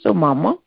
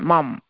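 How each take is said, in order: First: The final vowel is fully pronounced after m. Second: The final vowel is dropped, ending on m. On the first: The speaker calls it right. "you have to even pronounce it mama" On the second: The speaker calls it wrong. "the half mom. So that's the wrong pronunciation"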